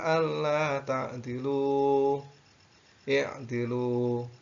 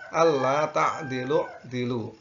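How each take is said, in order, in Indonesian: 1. Ada jeda, lalu i'dilu dimulai dengan i-nya. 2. Kedua kata menyambung, dengan menghilangkan i di awal. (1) "kalau diwakafkan boleh" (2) "kalau kita lanjut, maka cara membacanya adalah"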